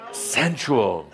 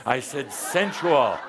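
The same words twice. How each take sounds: First: Sensual set apart and given weight; sensual said alone. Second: Sensual drawn out and slowed with a laugh; stress sensual. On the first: Teacher repeating the key word alone with weight. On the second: Teacher correcting the crowd, leaning on sensual slowly. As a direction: lean slowly into the word sensual. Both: Shown as a demonstration. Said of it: "put some sensual spice in your voice".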